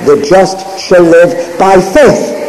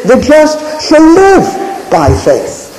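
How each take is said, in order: First: "faith" weighted, rising at the end; stress on FAITH. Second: Slow and higher, "live" given the weight, falling off after it; drawn out with "live" hit hardest; stress on LIVE. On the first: Preacher showing the congregation Hebrews' emphasis, stress on "faith". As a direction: let "faith" carry the line, a little slow. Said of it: "the emphasis is the principle". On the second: Preacher showing the congregation Galatians' emphasis, slow with stress on "live". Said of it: "that the emphasis is". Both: Shown as a demonstration.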